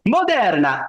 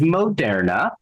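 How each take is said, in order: First: It is yelled in a goofy Italian accent. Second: It is said plainly in a normal accent. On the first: "yelling it in a goofy Italian accent" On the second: "I somehow just said Moderna without yelling it in a goofy Italian accent"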